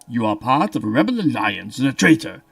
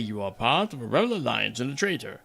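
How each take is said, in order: First: It is said in a deep, echoing Darth Vader voice. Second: It is said in a plain voice.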